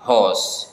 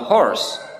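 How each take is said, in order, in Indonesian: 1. Diucapkan dengan aksen Inggris. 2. Diucapkan dengan aksen Amerika. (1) "Tetapi ketika di British English ini dibaca horse" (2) "Dalam bahasa Inggris Amerika ini dibaca horse"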